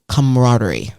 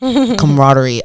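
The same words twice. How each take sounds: First: Camaraderie tried once, quick and falling, first attempt; careful try at a hard word. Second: Camaraderie said slowly, each syllable spelled out; slow careful retry. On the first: Guest announcing a hard word to the host, hesitant try. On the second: Guest retrying the hard word for the host, slow and careful. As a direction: Camaraderie drawn out and deliberate, getting it right. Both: Shown as a demonstration. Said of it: "I'm gonna try to pronounce this word".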